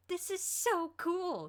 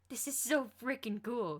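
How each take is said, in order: First: Much higher, very slow, drawn-out squeal of joy; overjoyed, stretch every word; jubilant. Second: Slow, raised, thrilled delight; excited. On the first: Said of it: "jumping up from the bench in jubilation". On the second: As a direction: savour every word with glee. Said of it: "and he just laughed". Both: A narrator's reading.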